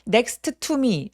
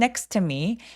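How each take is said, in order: First: Both T sounds are pronounced separately. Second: The two T sounds merge into one. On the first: The speaker calls it wrong. "아니죠?" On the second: The speaker calls it right. "한 번만 발음합니다"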